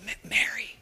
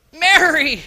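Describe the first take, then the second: First: Breathy whispered Mary; gentle whisper of Mary; soft whispered name. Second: Louder, higher call of Mary; Jesus calling out Mary; calling her name. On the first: Shown as a demonstration. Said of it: "How did he say Mary?". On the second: Acted. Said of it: "I don't know how he said it".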